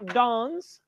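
It is said in a British English accent. "definitely belongs to England"

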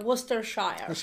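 It is said in an imitated American accent. The speaker calls it wrong. "I love how Americans pronounce Worcestershire sauce. They go"

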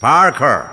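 It is said in an American accent. "as the Americans would say"

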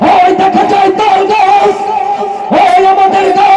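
It is recited in a loud political-rally style. "রাজনৈতিক মঞ্চে দাঁড়িয়ে দেখেন অনেকেই গলা ফাটিয়ে বক্তব্য দেয়"

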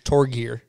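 The name is said with an American accent.

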